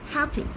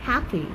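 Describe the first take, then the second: First: The final vowel is short and clipped. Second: The final vowel is drawn out longer.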